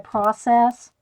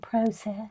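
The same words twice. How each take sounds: First: It is said in an American accent. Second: It is said in a British accent.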